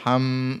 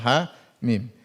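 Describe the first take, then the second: First: It is clipped into one short syllable. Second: It is said as two full letter names. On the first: The speaker calls it wrong. "Maka jangan dibaca ham" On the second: The speaker calls it right. "Hamim dibaca ha mim"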